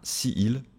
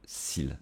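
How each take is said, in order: First: Two separate vowels are pronounced, si then il. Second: The vowel of si drops, giving one syllable. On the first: The speaker calls it wrong. "ce n'est pas possible si il" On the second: The speaker calls it right. "si il va devenir s'il"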